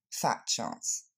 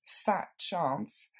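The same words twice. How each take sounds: First: Dry whispered "Fat chance", falling at the end; dismissive throwaway, stress on "Fat"; low whispered sarcasm, dropping on "chance"; ironic. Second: "fat chance" with a doubting rise on "chance"; sarcastic, lifting the end of "chance"; teasing disbelief, rising at the end; ironic. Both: Shown as a demonstration. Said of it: "une tournure largement ironique".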